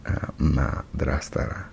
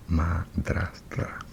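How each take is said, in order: First: Said in the usual way. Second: Madrastra whispered slowly; whispering. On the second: Real, not acted. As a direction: breathe madrastra in a slow whisper. Repeats word voiced then whispered.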